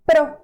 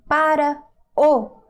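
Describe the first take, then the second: First: It is contracted into one short syllable. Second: It is said in full as two words. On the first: It is informal speech. "you can say pro. This is also informal" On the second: It is the standard form. "instead of saying para o"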